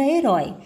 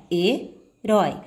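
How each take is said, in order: First: Said in the usual way. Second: Herói slowly split as he, pause, rói; he... rói, with a clear break between; split into syllables. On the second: Shown as a demonstration. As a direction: separate herói into its two syllables. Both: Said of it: "Quando você for separar a palavra herói".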